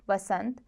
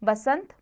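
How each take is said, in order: First: बसंत starting with v; correct v sound. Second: बसंत starting with b; wrong b sound. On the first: Teacher corrects it, बसंत with v. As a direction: say बसंत as vasant. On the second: Teacher shows the error, बसंत with b. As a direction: say बसंत as basant. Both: Shown as a demonstration. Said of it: "ब व संबंधी".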